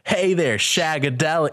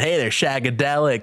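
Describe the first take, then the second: First: It is said in an Austin Powers accent. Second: It is said in his own plain voice.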